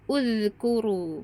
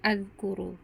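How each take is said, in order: First: The word begins with an u vowel. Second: The word begins with an a vowel. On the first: The speaker calls it right. "hamzah wasolnya dibaca dhammah" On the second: The speaker calls it wrong. "atau azkuru"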